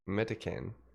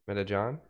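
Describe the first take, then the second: First: The C is said as a hard k. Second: The C is said as a j sound. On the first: The speaker calls it wrong. "but it's a C" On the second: The speaker calls it right. "the pronunciation of my name is Metajohn"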